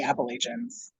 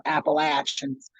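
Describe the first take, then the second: First: "Appalachians" said appa-LAY-shuns. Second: "Appalachians" said slowly as appa-LATCH-uns. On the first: Says place name, then repeats it differently. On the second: Repeats place name in other pronunciation. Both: Real, not acted.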